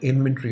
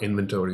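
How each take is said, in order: First: It is said with a British pronunciation. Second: It is said with an American pronunciation.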